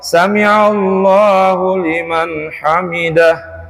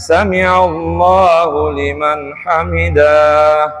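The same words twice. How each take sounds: First: The final syllable 'dah' is kept short. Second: The final syllable 'dah' is drawn out long. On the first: The speaker calls it right. "Itu yang benar" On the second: The speaker calls it wrong. "Padahal dahnya tidak panjang"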